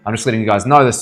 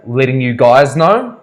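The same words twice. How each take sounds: First: Said in the usual way. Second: "Letting you guys know?" drawn out slowly and rising, offended; mock offended echo of "Letting you guys know?", slow and rising; mock indignant echo. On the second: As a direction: throw the phrase "Letting you guys know?" back at him, incredulous. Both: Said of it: "and she was like".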